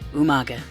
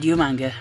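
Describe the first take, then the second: First: The name is said without an n before g. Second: The name is said with an n before g. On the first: The speaker calls it right. "not all of us Englishmen pronounce it Umanga" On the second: The speaker calls it wrong. "sorry I couldn't resist"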